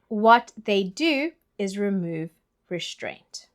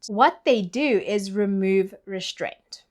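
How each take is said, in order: First: The sentence is spoken slowly and deliberately. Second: The sentence is spoken at a normal pace.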